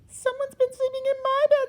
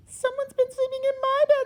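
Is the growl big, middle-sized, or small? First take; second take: small; small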